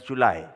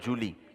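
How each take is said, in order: First: The word ends with an 'eye' sound. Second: The word ends with an 'ee' sound. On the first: The speaker calls it right. "J U L Y is July" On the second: The speaker calls it wrong. "not Julie"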